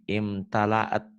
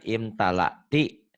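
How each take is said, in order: First: The word ends cut short on a long -aat. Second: The word ends with its full vowel, -ti. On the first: The reading stops at this word. "Kalau dihentikan gini" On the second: The reading continues past this word. "Kan dibaca apa adanya"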